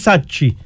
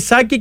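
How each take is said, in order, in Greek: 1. Το μεσαίο σύμφωνο είναι ήχος ch. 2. Το μεσαίο σύμφωνο είναι ήχος k. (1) "και όχι Σάτσι" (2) "Τελικά είναι Σάκη"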